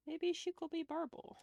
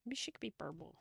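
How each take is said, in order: First: Pitched up, playful and coaxing; higher playful pitch. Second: Said in the usual way. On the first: Real, not acted. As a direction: repeat it higher to sell the idea. Suggestion repeated twice.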